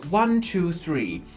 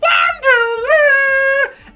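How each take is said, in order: First: It is said in a normal voice. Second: It is said in a high, nasal voice.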